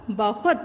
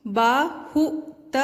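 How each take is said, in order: First: Said in the usual way. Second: "बहुत" drawn out very slowly; sounding out words. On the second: Shown as a demonstration. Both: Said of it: "ह पर कौन सी मात्रा है?".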